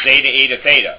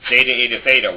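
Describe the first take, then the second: First: The letter names are said with English-style vowels. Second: The letter names are said with English-style vowels.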